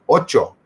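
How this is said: It is said with a native Spanish pronunciation. The speaker calls it right. "trying to use the proper pronunciation"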